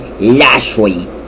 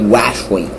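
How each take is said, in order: First: The name begins with an L sound. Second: The name begins with a W sound. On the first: The speaker calls it right. "It's an L word. L is not a W" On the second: The speaker calls it wrong. "I don't say"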